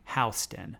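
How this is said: Houston starts with a 'how' sound.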